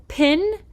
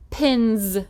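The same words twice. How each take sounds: First: Pin said higher; plain pin. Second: Pins ending on a buzzing z. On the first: Teacher contrasting pin with pins. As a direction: say pin cleanly. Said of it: "Now that makes the Z sound". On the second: Teacher showing the Z sound in pins. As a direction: buzz the z at the end of pins. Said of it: "makes the Z sound at the end". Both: Shown as a demonstration.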